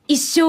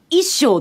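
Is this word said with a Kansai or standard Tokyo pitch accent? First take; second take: standard; Kansai. First: It has the standard Tokyo pitch accent. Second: It has the Kansai pitch accent, like rice measure. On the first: It means a lifetime. "一生忘れんだと思ったら" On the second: It means a lifetime, but sounds like a rice measure. "一生ってお米の一生じゃんってなって"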